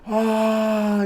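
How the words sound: The scream sounds terrified and desperate.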